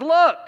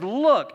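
First: "Look!" shouted much higher and louder; exasperated look. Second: Sharp, louder exclamation on "Look!"; exclaimed look. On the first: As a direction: blurt "Look!" in full exasperation. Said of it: "He's really exasperated". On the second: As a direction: bark "Look!" like an exclamation point. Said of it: "exclamation point". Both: Retold or imitated.

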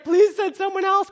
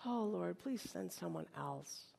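First: Loud, high-pitched begging; exasperated plea. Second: Very soft, low, slow prayer; hushed plea. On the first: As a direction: beg at full voice. Moses pleads at breaking point. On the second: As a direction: beg quietly, almost under your breath. Voices Moses's plea to God. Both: Acted.

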